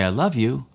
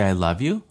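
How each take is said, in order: First: It sounds tender and tearful. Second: It sounds dismissive, as if rolling the eyes.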